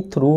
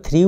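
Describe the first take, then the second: First: "threw" correctly sounded as "throo"; "threw" rhyming with "through"; threw pronounced "throo". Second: "threw" wrongly sounded as "three"; the common slip, "threw" rhyming with "free"; threw mispronounced as "three". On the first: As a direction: say "threw" with an oo vowel. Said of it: "नहीं, threw होता है". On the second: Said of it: "कई लोग threw बोल देते हैं". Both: Shown as a demonstration.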